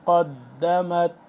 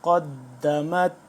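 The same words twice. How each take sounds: The two takes are said the same way.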